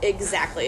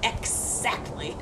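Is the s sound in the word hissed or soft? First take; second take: soft; hissed. First: The s sound is short and soft. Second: The s sound is long and hissed. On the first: The speaker calls it right. "It would be more like" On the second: The speaker calls it wrong. "instead of exactly. We aren't snakes"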